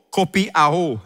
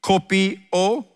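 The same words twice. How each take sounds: First: "kopi ao" ending in ah-oh; "kopi ao" with A before the O; Greek word pronunciation. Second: "Kopi o" slowly, ending in a plain O; slow "Kopi o" with a single final O; local coffee pronunciation. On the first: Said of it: "it is the Greek word kopiao". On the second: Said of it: "like kopi o". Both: Shown as a demonstration.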